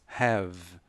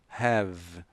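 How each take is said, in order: The two takes are said the same way.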